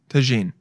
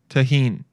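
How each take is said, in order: First: The middle consonant sounds like a J. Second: The middle consonant sounds like an H. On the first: The speaker calls it right. "I was close" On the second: The speaker calls it wrong. "I'm guessing that the J is with like an H"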